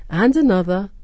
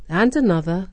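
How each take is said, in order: Both takes have the same delivery.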